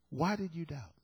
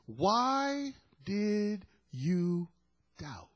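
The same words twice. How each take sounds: First: Said in the usual way. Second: Very slow, each word stretched out; slow, lingering question falling to a hush; drawn-out question. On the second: Acted. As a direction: draw out WHY high, then let DOUBT drop away softly. Quotes Jesus' question without condemnation.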